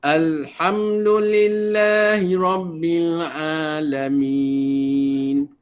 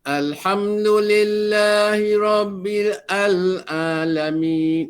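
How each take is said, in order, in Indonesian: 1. Rabbil langsung menyambung ke Alamin tanpa vokal baru. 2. Hamzah dan vokal disisipkan sebelum Alamin. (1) "Matikan betul" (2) "dibariskan lagi sekalian belah wasal yang berada di tengah-tengah sana. Tak perlu ya"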